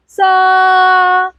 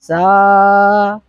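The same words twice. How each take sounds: First: High sa. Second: "सा" sung on a low note. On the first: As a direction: lift "सा" to the upper note. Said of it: "both are different". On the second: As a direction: sing "सा" low and steady. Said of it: "सा और सा में फर्क है ना". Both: Shown as a demonstration.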